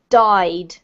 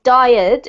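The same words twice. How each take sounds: First: The word is said as one syllable. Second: The word is stretched into two syllables. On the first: The speaker calls it right. "it's died" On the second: The speaker calls it wrong. "This word is one syllable, okay? So it's not died"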